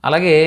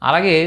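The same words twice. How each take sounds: No difference in how they are said.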